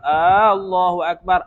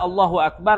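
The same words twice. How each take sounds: First: The first vowel of Allah is drawn out long. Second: The first vowel of Allah is short. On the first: It asks whether God is the greatest. The speaker calls it wrong. "Bila dia buat Allahu akbar, adakah Allah Maha Besar?" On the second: It states that God is the greatest. The speaker calls it right. "Biasa Allahu akbar maknanya Allah Maha Besar"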